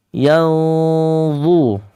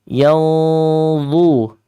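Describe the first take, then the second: No difference in how they are said.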